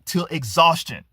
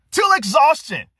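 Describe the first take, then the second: First: Said in the usual way. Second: Till repeated higher and louder; stress on Till. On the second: Shown as a demonstration. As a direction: hit Till hard the second time.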